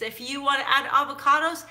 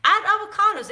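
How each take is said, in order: First: Said in the usual way. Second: "add avocados" much higher and louder; emphatic go-ahead. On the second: Shown as a demonstration. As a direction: punch "add avocados" as a cheerful command. Emphatic permission.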